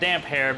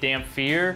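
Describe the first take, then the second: First: The middle is said as p then h. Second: The middle is said with an f sound. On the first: The speaker calls it right. "it is pronounced Damphair because his hair is always getting all damp" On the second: The speaker calls it wrong. "a lot of people pronounce it differently. They say Damphir"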